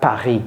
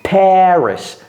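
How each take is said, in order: First: Paris is pronounced with a French sound. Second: Paris is pronounced with an English sound. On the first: The speaker calls it wrong. "it's not Paris" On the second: The speaker calls it right. "It's Paris"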